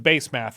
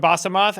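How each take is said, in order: First: The last syllable sounds like 'math'. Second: The last syllable sounds like 'moth'. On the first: "Her name is Base Math now" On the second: "That's the last time I call her Basamoth"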